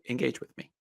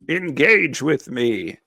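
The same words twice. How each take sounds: First: It is said in a normal voice. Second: It is said in a funny put-on voice.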